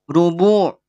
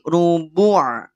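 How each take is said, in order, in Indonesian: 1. Ain tebal, dengan bibir membulat. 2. Ain tipis, tanpa bibir membulat. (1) "Tidak sampai ditahan pada posisi monyong. Takut jadi te tebal" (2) "Ain tipis"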